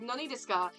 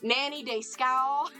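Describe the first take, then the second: First: It is said with a plain Japanese accent. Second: It is said with a strong Southern American accent.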